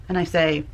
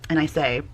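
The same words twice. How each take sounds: Both takes have the same delivery.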